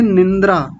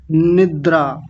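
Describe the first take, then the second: First: निंद्रा with an n before the d, nindra; added nasal. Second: निद्रा as nid-draa, straight onto the d; no nasal. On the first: Teacher imitating common error, निंद्रा as nin-dra. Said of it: "कई लोग बोलते हैं". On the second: Teacher modelling the word, निद्रा as nid-draa. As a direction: keep निद्रा free of n before d. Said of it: "निद्रा होता है". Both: Shown as a demonstration.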